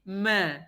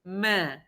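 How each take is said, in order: The two takes are said the same way.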